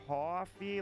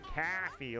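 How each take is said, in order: First: The first vowel sounds like 'aw' with a W glide. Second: The first vowel sounds like an open 'ah'. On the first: "like with there's a W in there" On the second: "like there's an A H in there"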